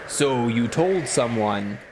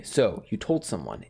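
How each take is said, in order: First: Slow, drawn-out spooky voice; eerie, stretched-out demonic voice; scary voice. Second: Understated imitation of a scary voice; retold scary voice. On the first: Acted. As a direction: say it slowly like a menacing phantom. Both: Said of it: "It was a very scary voice".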